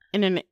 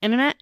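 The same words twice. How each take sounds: First: "Internet" said "innernet"; "Internet" without the middle t; Midwestern internet, t dropped. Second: "Internet" with a clear middle t; "Internet" said fully, all t's; careful internet, t said. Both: Shown as a demonstration. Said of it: "my Midwestern accent says internet".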